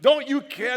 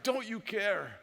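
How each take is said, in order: First: High, loud desperate cry; panicked yell, much higher and louder; yelled question. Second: Said in the usual way. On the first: Retold or imitated. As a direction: shout it up at God in the storm. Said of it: "wanted to yell at God". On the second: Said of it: "That was their question".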